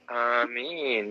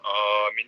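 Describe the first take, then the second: First: It is said softly and gently. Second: It is said loudly and firmly.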